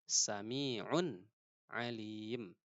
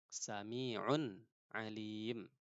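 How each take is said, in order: The two takes are said the same way.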